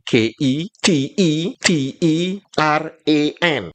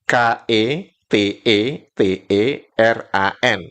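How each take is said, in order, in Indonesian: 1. Setiap huruf E disebut dengan bunyi 'ee'. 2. Setiap huruf E disebut dengan bunyi 'eh'. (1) "kalau dalam bahasa Maledes berarti mengejanya gini" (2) "Kalau Indonesia"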